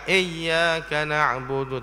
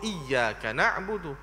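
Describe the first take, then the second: First: The first vowel is a loose 'eh' sound. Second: The first vowel is a clear 'ee' sound. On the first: The speaker calls it wrong. "bukan e ... Itu sebutan yang leweh" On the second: The speaker calls it right. "supaya kita sebutlah i itu dengan i"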